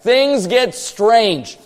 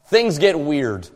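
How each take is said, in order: First: Things get strange, each word stretched slowly; slow, drawn out. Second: Said in the usual way. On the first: Shown as a demonstration. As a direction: draw out "strange" for effect. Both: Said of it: "we'll say it like that".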